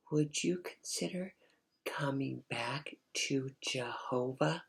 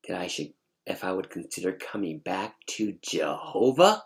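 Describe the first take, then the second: First: Gently pleading mother. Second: Incredulous question rising on "Jehovah"; indignant attitude. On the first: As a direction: plead in a hushed mom voice. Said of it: "she was talking just like that". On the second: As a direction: throw the request back in disbelief. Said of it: "with this attitude". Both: Retold or imitated.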